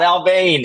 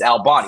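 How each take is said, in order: First: The name ends with a 'bane' sound. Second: The name ends with a 'bon' sound. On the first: The speaker calls it wrong. "It's not Albane" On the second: The speaker calls it right. "it's Albon"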